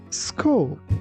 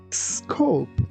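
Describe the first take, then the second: Both takes have the same delivery.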